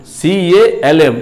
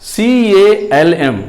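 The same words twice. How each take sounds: Both takes have the same delivery.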